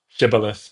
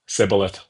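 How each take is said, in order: First: The word begins with a 'sh' sound. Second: The word begins with an 's' sound. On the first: The speaker belongs to the accepted group. The speaker calls it right. "one uh, population says sh- shibboleth" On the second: The speaker belongs to the enemy group. The speaker calls it wrong. "the other says sibboleth because they don't have that in their linguistics"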